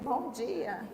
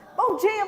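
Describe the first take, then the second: First: It is said sleepily, with low energy. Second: It is said cheerfully, with lively energy.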